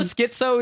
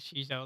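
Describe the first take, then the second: First: The word begins with an 'sk' sound. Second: The word begins with an 'sh' sound. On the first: "Schizo is the proper way to say it" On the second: "That's how I like saying it"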